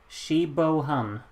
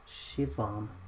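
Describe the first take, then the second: First: The middle of the name has a B sound. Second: The middle of the name has a V sound. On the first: "That's how you pronounce it?" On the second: "when the B becomes a V"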